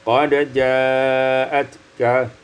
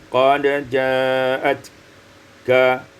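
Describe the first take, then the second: Both takes have the same delivery.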